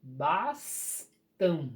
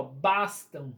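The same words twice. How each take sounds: First: Bastam broken as bas... tam; slow, pause between "bas" and "tam" in "Bastam"; split into syllables. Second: Said in the usual way. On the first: Shown as a demonstration. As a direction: separate the two syllables of "Bastam". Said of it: "vocês vão separar ela". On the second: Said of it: "vão fazer aqui".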